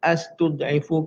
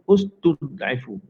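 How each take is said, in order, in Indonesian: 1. Kata ini diawali dengan vokal a. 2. Kata ini diawali dengan vokal u. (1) "astud'ifu ke" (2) "jawapannya dibaca dengan ustud'ifu"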